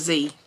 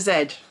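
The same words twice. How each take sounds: First: It is said the American way, zee. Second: It is said the British way, zed.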